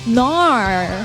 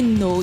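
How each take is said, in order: First: It is said with an Australian 'nar' vowel. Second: It is said with a plain, non-Australian vowel. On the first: "A nar is actually an accent from Australia" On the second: "when you say no"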